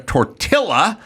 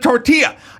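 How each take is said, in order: First: The double L is said as an L sound. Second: The double L is not said as an L. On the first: It follows the speaker's own habit. "that's how [name] says his L's" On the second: It follows the other person's pronunciation. "the way you pronounce it"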